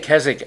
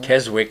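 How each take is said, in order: First: The W in the middle is silent. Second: The W in the middle is pronounced. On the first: The speaker calls it right. "which is correct" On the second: The speaker calls it wrong. "is not the way you say it"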